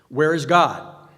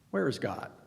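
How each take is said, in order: First: It is said loudly and sternly. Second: It is said calmly and quietly.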